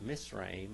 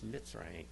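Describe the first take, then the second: First: The consonant after the first vowel is s. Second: The consonant after the first vowel is ts. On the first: The speaker calls it wrong. "It's not" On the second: The speaker calls it right. "It's got a tss, tss, a ts sound"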